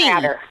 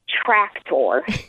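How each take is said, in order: First: The k sound before the t is dropped. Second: The k sound before the t is pronounced. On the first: The speaker calls it wrong. "No C" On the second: The speaker calls it right. "I have to stop and concentrate on saying the word tractor"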